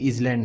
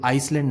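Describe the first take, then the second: First: A Z sound is heard before the L. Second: An S sound is heard before the L. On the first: "या फिर इजलैंड नहीं पढ़ते" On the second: "इसे हम आइसलैंड नहीं पढ़ते"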